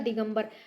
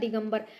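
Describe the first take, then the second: First: It has a nasal m before the b. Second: The same.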